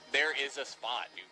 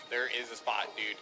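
No difference in how they are said.

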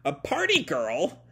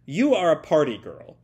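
First: Mildly shocked echo, questioning; a touch of comic astonishment. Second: Loud, declarative villain's order; acted commanding proclamation; hypnotic command. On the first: Retold or imitated. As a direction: repeat it in mock disbelief. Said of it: "turn for the comic shock". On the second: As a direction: pronounce it firmly, like casting a spell.

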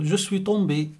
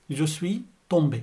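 First: Said in the usual way. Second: Slow, each syllable of "Je suis tombé" drawn out; slow model repeat. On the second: Shown as a demonstration. Teacher repeating slowly for Arabic-speaking learners, slow and clear. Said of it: "يعني أنا وقعت".

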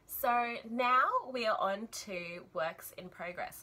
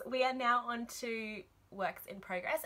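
First: Talking with wool in mouth; words muffled by a mouthful of yarn; mouth full of wool. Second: Said in the usual way. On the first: Real, not acted. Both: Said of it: "Sorry, I have wool in my mouth".

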